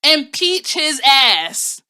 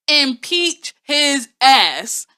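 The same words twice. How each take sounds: First: Slow, loud, drawn-out impeach chant; Auntie Maxine voice. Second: Slow, loud, rising impeach call; Auntie Maxine voice. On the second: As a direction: stretch it out, rise at the end. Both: Retold or imitated. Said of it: "in my Auntie Maxine voice".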